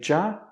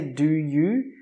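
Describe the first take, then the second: First: The two words merge into one short syllable. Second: Both words are pronounced fully and separately. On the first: The speaker calls it right. "we say ja have a" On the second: The speaker calls it wrong. "We don't say do you"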